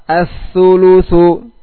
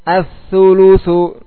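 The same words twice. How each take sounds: Both takes have the same delivery.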